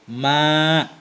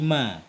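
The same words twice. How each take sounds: First: The vowel is long, ending in a glottal catch. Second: The vowel is short, with no glottal catch. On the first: "Maksud dengan mad ada hamzah mamdudahnya" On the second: "hamzahnya dihilangkan jadi ma"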